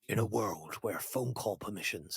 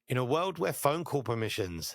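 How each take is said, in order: First: It is read in a dramatic movie-trailer voice. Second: It is read in a plain, normal voice.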